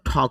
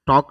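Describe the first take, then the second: First: The first consonant is said with a puff of air. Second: The first consonant is said without a puff of air. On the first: The speaker calls it right. "ঠক হবে উচ্চারণটা" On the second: The speaker calls it wrong. "টক না হয়"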